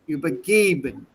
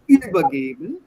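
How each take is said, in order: First: The stress falls on the second part, geben. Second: The stress falls on the first part, über. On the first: The speaker calls it right. "stress the second half of the verb" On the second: The speaker calls it wrong. "not übergeben"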